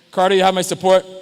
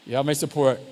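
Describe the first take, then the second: First: Louder, emphatic declaration. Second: Said in the usual way. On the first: Real, not acted. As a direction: declare it loudly to Carter.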